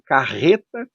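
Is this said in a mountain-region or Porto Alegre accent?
Porto Alegre. It is said in a Porto Alegre accent. "Nós temos aqui na Grande Porto Alegre"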